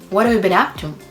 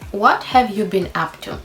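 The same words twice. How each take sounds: First: The words run together with reductions. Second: Each word is said fully and separately. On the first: "this is the connected speech full of reductions" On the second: "if you read the sentence"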